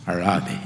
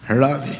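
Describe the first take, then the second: First: Tender comfort. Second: Said in the usual way. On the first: Retold or imitated. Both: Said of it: "என்று சொல்வார்".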